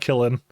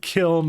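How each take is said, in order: First: The word is said as two syllables. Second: The word is said as one syllable. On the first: The speaker calls it wrong. "I keep mispronouncing it, like I do Killin" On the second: The speaker calls it right. "it's a kiln"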